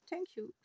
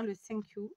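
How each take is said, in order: First: French-accented English. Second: Said in the usual way. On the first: Shown as a demonstration. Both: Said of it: "j'ai un accent pourri".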